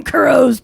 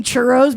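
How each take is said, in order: First: "churros" with a hard k, like "KUR-ohs"; mispronounced churros. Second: Said in the usual way. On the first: Pretend. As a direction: say "churros" starting with k instead of ch. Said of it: "sang this word wrong". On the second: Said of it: "I'm just imagining him".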